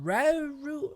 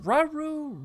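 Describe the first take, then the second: First: RAURU high, first vowel as in "cat"; second try at Rauru, flatter "a" sound, questioning; alternative pronunciation. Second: RAURU drawn out, high questioning first try; pronunciation guess. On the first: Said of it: "Either way you say it". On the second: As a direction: say Rauru slowly, first vowel as an open "ah". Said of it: "how do you pronounce this name". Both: Shown as a demonstration.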